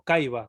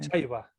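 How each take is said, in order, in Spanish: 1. La palabra empieza con un sonido k. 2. La palabra empieza con un sonido ch. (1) "la C nunca se va a pronunciar como" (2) "siempre se va a pronunciar con H"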